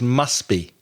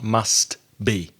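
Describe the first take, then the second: First: The T at the end of must is dropped. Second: The T at the end of must is pronounced. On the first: The speaker calls it right. "you don't really pronounce the T. So it's must be" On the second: The speaker calls it wrong. "not must be"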